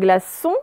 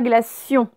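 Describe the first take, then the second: First: The ending is a plain 'son' sound. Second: The ending has a 'y' glide: 'sion'. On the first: The speaker calls it right. "Il n'y a pas le i" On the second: The speaker calls it wrong. "ce n'est pas glacion"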